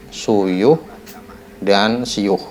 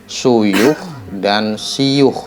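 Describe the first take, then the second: Both takes have the same delivery.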